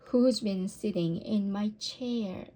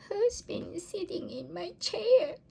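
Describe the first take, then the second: First: It is said in a medium, ordinary voice. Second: It is said in a tiny, squeaky voice. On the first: A middle-sized mother bear is speaking. "in her middle-sized voice" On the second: A little baby bear is speaking. "squeaked the baby bear"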